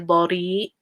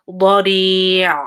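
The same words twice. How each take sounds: First: The final ayn sound is left out. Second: The final ayn sound is full and held. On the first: The speaker calls it wrong. "Please try to make the ayn sound. Don't say bari" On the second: The speaker calls it right. "try to like give time to it"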